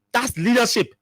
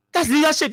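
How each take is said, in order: First: Said in the usual way. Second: "That's" lifted higher and punched for emphasis; emphatic repeat. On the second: Shown as a demonstration. Commentator insisting to listeners that a warning is leadership, emphatic. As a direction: say "That's leadership" again, pitch up on "That's".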